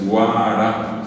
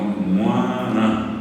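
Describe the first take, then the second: First: The first syllable is spoken orally, without nasality. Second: The first syllable is spoken with nasal resonance. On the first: The speaker calls it wrong. "no es guara" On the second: The speaker calls it right. "sino muana"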